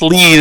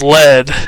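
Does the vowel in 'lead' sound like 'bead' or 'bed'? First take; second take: bead; bed. First: The vowel is a long ee sound. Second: The vowel is a short e sound. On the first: It means to guide or direct someone. "if we pronounce this lead" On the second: It means the hard metal. "instead of lead"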